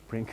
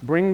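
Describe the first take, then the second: First: The final consonant is a voiceless k sound. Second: The final consonant is a voiced ng sound.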